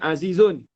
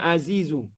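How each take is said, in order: First: The word ends with an added n sound. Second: The word ends on a vowel with no n. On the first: It is read this way outside poetry. "Kalau bukan syair" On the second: It is read this way in poetry. "Dalam syair dia tak baca tanwin"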